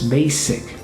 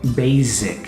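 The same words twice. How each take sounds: First: The middle consonant is a hissing S sound. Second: The middle consonant is a buzzing Z sound. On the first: The speaker calls it right. "it's basic" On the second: The speaker calls it wrong. "don't say basic, you know, that's wrong"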